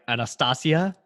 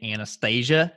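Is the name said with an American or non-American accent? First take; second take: non-American; American. First: The name is said in a non-American way. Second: The name is said in an American way.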